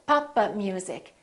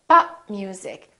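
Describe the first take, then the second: First: The p is released, adding an extra syllable. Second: The p is held, with no extra syllable. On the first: The speaker calls it wrong. "adding an extra syllable. It sounds almost like four syllables" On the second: The speaker calls it right. "Three syllables. So make sure that you hold the stop"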